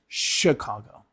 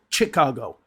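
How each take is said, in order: First: The word begins with a sh sound. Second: The word begins with a ch sound. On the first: The speaker calls it right. "It's more the sh letter" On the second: The speaker calls it wrong. "Not Chicago"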